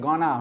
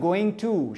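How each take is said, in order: First: The phrase is reduced to one short word. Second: The phrase is said in full, two clear words. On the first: It suits only informal speech. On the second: It suits formal speech.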